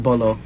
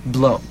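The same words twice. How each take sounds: First: Bolo with a vowel between b and l; wrong two-syllable ending. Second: Blo with b and l run together; correct one-syllable ending. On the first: Correcting co-host's mistake, Bolo in two syllables. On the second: Showing co-host the ending, Blo as one syllable. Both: Shown as a demonstration. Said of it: "No, not Bolo".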